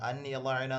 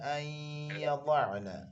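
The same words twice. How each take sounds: First: The n is pronounced clearly and separately. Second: The n merges, nasalized, into the y. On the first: The speaker calls it wrong. "അൻ യضعന എന്ന് പറഞ്ഞാൽ ശരിയാവില്ല" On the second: The speaker calls it right. "യാ ഇദ്ഗാം ബിഗുന്നയുടെ അക്ഷരമാണ്"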